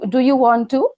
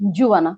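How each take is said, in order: First: Each word is said fully and separately. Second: The words are blended into one contracted form. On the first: "It's do you do you want to?" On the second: "after contraction"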